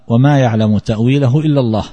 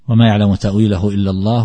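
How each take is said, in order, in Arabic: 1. تقف التلاوة هنا وقفا تاما. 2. تستمر التلاوة إلى الكلمات التي بعدها. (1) "فالوقف هنا يصح" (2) "ويمكن أن تصل وتقول"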